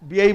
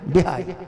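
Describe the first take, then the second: First: The middle has a y glide, no h. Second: The middle has a clear h sound. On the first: This is how the local listeners say it. "হ্যাঁ, বিয়েই বলেন।" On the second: This is how Bihari people say it. "আর আমরা বিহারি মানুষ বলি বিহাই"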